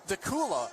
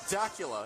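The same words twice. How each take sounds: First: The name does not rhyme with Dracula. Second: The name rhymes with Dracula. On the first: The speaker calls it right. "it's pronounced Dacula ... It does not rhyme with Dracula" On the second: The speaker calls it wrong. "and not Dacula"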